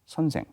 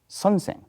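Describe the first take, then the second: First: Neither syllable is stressed. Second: The stress is on the first syllable. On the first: This is how the capital region says it. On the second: This is how the rest of the east region says it.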